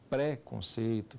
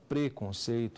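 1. A primeira sílaba tem a vogal e aberta. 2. A primeira sílaba tem a vogal e fechada. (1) "Baiano fala pré-conceito" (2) "ele não fala preconceito"

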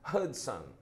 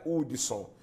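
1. É dito com sotaque do inglês americano. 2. É dito com sotaque brasileiro geral. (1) "como eles dizem lá nos Estados Unidos" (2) "eu estou no Brasil, então é Hudson"

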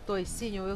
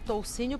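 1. O primeiro som vocálico é 'oi'. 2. O primeiro som vocálico é 'ou'. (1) "É válido falar toicinho?" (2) "Eu falei aqui toucinho porque em todas as vezes que eu leio essa receita tá escrito"

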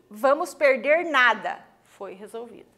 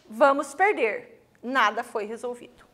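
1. Há uma pausa depois da palavra nada. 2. Há uma pausa depois da palavra perder. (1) "não vamos perder mais nada porque foi resolvida a situação" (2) "nada foi resolvido, vamos perder tudo"

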